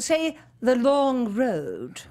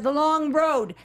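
First: It is said in the teacher's British-style accent. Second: It is said with a Chicago American accent.

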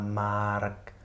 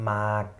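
First: An r sound is pronounced. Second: No r sound is pronounced. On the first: The speaker calls it wrong. "also nicht Mark oder Mark oder sowas" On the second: The speaker calls it right. "sondern Mark"

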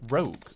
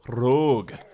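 First: It is said in the speaker's ordinary accent. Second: It is said in a Scottish accent.

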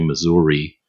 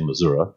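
First: It is said the Michigan way. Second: It is said the local Missouri way.

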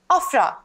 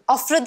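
First: The stress is on the first syllable. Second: The stress is on the second syllable. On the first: It is the proper name. The speaker calls it right. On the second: It sounds like the word for showing off. The speaker calls it wrong.

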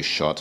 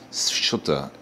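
First: The word starts with a plain sh sound. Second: The word starts with s gliding into sh. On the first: The speaker calls it wrong. "some people just say счёты or something like that" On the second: The speaker calls it right. "You start with an S and then you go from the S into the sh sound"

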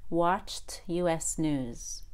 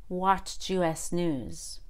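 No difference in how they are said.

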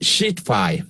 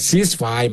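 First: It begins with a 'sh' sound. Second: It begins with an 's' sound. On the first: The speaker calls it wrong. "ที่ผมฟังแกออกเสียงอันนี้ขำขันนะครับ" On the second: The speaker calls it right. "มันจะเป็นตัว C"

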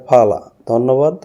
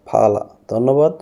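Both takes have the same delivery.

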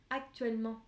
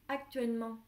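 The two takes are said the same way.

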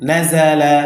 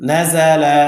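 Both takes have the same delivery.

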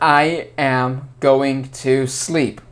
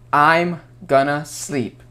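First: Every word is said in full, uncontracted. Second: The words are contracted into shorter forms. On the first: The speaker calls it wrong. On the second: The speaker calls it right.

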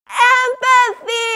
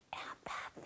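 First: The word is shouted very loudly. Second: The word is whispered very quietly.

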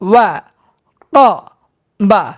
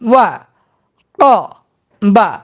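First: The syllables are said separately with breaks. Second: The syllables are said separately with breaks.

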